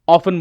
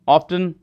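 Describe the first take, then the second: First: The t sound is silent in the middle. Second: The t sound is pronounced in the middle. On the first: The speaker calls it right. "ऑफन बोलना है" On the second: The speaker calls it wrong. "ऑफ्टन, नहीं बोलना है"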